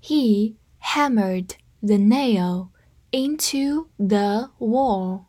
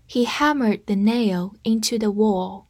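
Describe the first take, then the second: First: Slow and evenly spaced; slow read. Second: Said in the usual way. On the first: Shown as a demonstration. Teacher reads slowly for students to copy. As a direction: drag each word out for learners. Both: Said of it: "跟着我慢读一遍".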